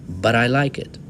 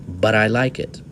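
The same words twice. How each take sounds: The two takes are said the same way.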